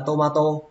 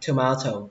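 First: The stress falls on the first syllable. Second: The stress falls on the second syllable. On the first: The speaker calls it wrong. "chúng ta hay nói là tomato" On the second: The speaker calls it right. "cách đọc đúng là tomato"

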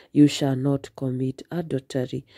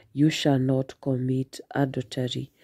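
Both takes have the same delivery.

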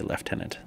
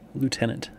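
First: The word is said in a non-American way. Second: The word is said the American way. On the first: This is the form taught in cadets. "I was trained to say lieutenant" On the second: This is the speaker's habitual form. "It's just what I say. Too much American"

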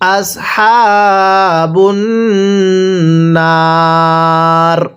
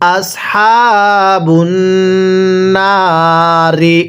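First: The last word ends in a consonant. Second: The last word ends in a vowel. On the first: The reader stops at this word. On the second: The reading continues without stopping.

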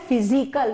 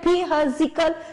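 First: The word is said with its normal pronunciation. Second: The word is read out following its spelling. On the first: The speaker calls it right. "हम इसका प्रोनाउंसिएट कैसे कर रहे हैं" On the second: The speaker calls it wrong. "Pronunciation इसका हम इस तरीके से तो नहीं कर रहे हैं"

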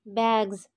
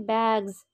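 No difference in how they are said.

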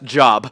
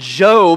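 First: The vowel is short, rhyming with rob. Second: The vowel is long, rhyming with lobe. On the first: It is read as the everyday word for work. The speaker calls it wrong. "it says J-O-B, last time I checked, that's Job" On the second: It is the name of the biblical man. The speaker calls it right. "is how you pronounce it"

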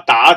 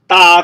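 First: The pitch rises from mid to high. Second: The pitch stays high and level. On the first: It means to hit. "打系第二音" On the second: It means a dozen. "所以第一音系哒"

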